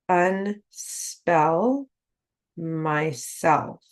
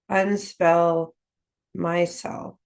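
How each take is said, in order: First: It is said very slowly, syllable by syllable. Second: It is said at a faster pace.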